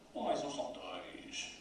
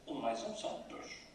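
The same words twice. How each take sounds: First: Dois gets a heavy, scornful emphasis. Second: The voice drops straight down on dois. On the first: The listener is an idiot. "Se ainda dermos ênfase à palavra dois de outra forma ... e ainda por cima és imbecil" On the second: I am losing patience with you. "E se descermos no dois ... A melodia da impaciência"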